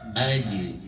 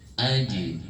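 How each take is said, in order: The two takes are said the same way.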